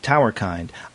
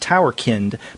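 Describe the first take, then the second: First: The ending rhymes with 'mind', as in humankind. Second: The ending has a short vowel, as in 'kin'. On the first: The title evokes a kind of being, like humankind. "it's like humankind" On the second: The title refers to children. "because it deals with children"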